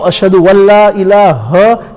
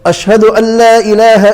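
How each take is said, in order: First: A 'w' sound is inserted before the second word. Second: The second word starts with a plain vowel. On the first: The speaker calls it wrong. "there's no wow" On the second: The speaker calls it right. "it's got a zabar, not an alif after that"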